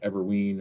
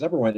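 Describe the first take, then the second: First: The last syllable sounds like ween. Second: The last syllable sounds like wine. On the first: The speaker calls it wrong. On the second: The speaker calls it right.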